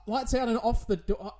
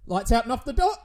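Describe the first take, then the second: First: Said in the usual way. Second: Urgent order. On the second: Acted.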